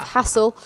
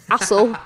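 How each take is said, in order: First: "hassle" with a clear breathy H at the start; proper H. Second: "hassle" said as "assle" with no H; dropped H. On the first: Co-host contrasting the joke, says "hassle" with its H. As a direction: sound the H of "hassle" fully. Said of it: "instead of hassle". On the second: Co-host joking about subtitlers mishearing, says "hassle" without the H. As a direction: drop the H of "hassle" completely. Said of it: "accidentally writing". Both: Shown as a demonstration.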